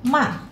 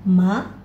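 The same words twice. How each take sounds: First: The pitch falls sharply from high to low. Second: The pitch rises from middle to high. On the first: "yang keempat turun saja agak cepat" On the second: "dua ini naik"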